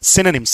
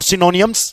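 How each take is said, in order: First: The ending is short and clipped, like 'nims'. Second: The ending has an extra vowel, like 'nee-ums'. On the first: The speaker calls it right. "It's सिनोनिम्स" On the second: The speaker calls it wrong. "सिनोनियम्स नहीं है बेटा, ओ silent रहने वाला है"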